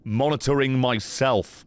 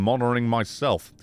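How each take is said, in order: First: The words are articulated clearly. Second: The words are slurred and unclear. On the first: The speaker calls it right. "without the fucking marbles in my mouth" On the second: The speaker calls it wrong. "the fucking marbles in my mouth"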